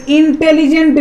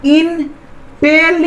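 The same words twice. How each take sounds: First: Said in the usual way. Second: intelligent slowly as इन, tele, gent with gaps; split into syllables. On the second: Shown as a demonstration. Teacher showing three parts are coming, split into syllables. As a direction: pull intelligent apart into three beats. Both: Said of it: "तीन ठो आ रहा है".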